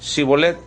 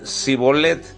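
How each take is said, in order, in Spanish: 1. La palabra empieza con sonido sh. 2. La palabra empieza con sonido s simple. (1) "los de Galad decían Shibolet" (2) "no podían pronunciar la H con la S y decían Sibolet"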